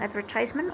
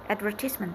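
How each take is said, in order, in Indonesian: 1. Diucapkan dengan cara Amerika. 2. Diucapkan dengan cara Inggris. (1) "Orang Amerika bilang advertisement" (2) "orang Inggris bilang advertisement"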